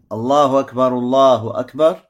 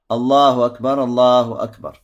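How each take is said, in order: Both takes have the same delivery.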